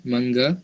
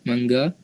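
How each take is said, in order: The two takes are said the same way.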